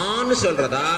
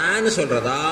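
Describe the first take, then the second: Both takes have the same delivery.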